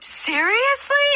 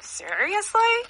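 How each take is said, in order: First: It is said warmly and happily, smiling. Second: It is said with a mocking, sarcastic tone. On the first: The news is wonderful. "Like with this big smile" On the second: The speaker is annoyed and mocking. "You're being a little sarcastic"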